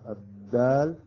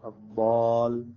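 First: The d sound is light and plain. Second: The d sound is heavy and emphatic.

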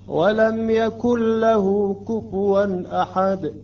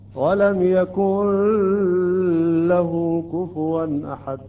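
First: The L sound is short without nasal hum. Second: The L sound is drawn out and held. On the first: The speaker calls it right. "بدون حركتين وبدون غنة" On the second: The speaker calls it wrong. "لا تأخر هكذا، ... هذا غلط"

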